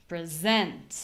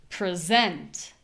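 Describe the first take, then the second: No difference in how they are said.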